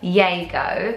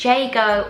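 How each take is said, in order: First: The name begins with a Y sound. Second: The name begins with a J sound. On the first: "or Yago" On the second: "you can either pronounce it Jago"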